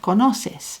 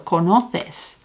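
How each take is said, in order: First: The second c sounds like s. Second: The second c sounds like th. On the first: This is how it is said in Latin America. "We don't have that conoces. We have conoces" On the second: This is how it is said in Spain. "If you're in Spain, you might lisp that second C"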